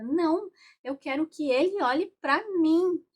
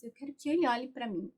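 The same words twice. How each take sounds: First: Higher and louder, a mock-upset demand; unhappy demand. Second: Said in the usual way. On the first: Representative demanding her father's gaze, upset and loud. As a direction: insist like a sulking child who wants attention. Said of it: "não tava nada feliz, nada mesmo". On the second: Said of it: "E chega até a cruzar os braços".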